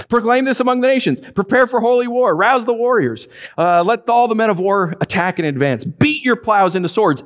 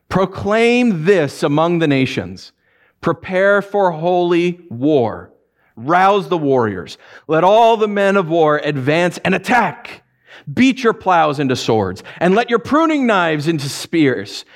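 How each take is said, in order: First: Higher, quicker mock-grand war call; sarcastic proclamation. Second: Slow, solemn reading of the verse; scripture reading. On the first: God taunting the nations, mock-grand and high. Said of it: "here God uses sarcasm". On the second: Acted. Preacher reading Joel to the congregation, slow and solemn. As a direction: read it out gravely, slowly.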